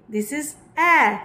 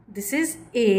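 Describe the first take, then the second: First: The Hindi ए said slowly and clearly, set against the English A. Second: Said in the usual way. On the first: Shown as a demonstration. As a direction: stress the vowel in "ए" as the Hindi sound.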